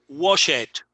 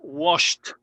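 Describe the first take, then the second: First: The ending is an extra syllable, like 'id'. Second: The ending is a single t sound. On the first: The speaker calls it wrong. "quieren decir, por ejemplo, wash it" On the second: The speaker calls it right. "no es wash it, es washed"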